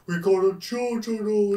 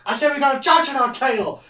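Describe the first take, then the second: First: Stretched out, slow-motion delivery. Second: Much higher, louder, yelled repeat; repeated shout. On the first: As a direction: drag the words like a slowed-down film. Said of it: "'cause it's in slow-mo". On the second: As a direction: shout it again over the noise. Shouting over the chase. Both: Retold or imitated.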